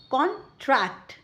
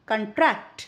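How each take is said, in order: First: contract as CON-tract, full first vowel; noun stress. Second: contract as kun-TRACT; verb stress. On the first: Teacher reads the noun aloud, first syllable of contract stressed. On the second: Teacher reads the verb aloud, second syllable of contract stressed. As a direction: reduce the first vowel of contract, weight the second syllable. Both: Shown as a demonstration. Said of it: "with the correct syllable stress".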